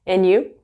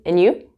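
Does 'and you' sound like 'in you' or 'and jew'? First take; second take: in you; in you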